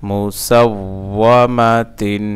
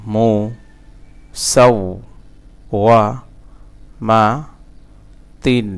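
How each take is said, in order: First: "মুসাওওয়ামাতিন" slow and connected; joined reading pronunciation. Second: "مو সাওওয়ামাতিন" with a long pause after each syllable; broken syllable-by-syllable. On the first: Teacher reading it whole for learners, slowly joined. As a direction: link "মুসাওওয়ামাতিন" into one measured word. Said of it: "reading উচ্চারণ". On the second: Teacher breaking the word for learners, syllable by syllable. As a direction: chop "مو সাওওয়ামাতিন" into slow pieces. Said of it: "ভাঙা ভাঙা". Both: Shown as a demonstration.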